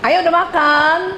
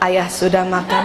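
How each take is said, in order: First: The voice is raised, high and coyly playful. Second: The voice is plain, low and flat. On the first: The wife sounds pampered and wants looking after. The speaker calls it right. "suaranya sedikit naik satu oktav melengking" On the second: The wife sounds matter-of-fact and distant. The speaker calls it wrong.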